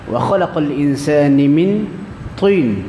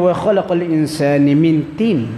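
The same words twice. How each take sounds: First: The t in the last word is heavy and thick. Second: The t in the last word is light and thin. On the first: Humans were created from clay. "tin tebal, ta tanah" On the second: Humans were created from figs. "daripada buah tin, jauh makna tu"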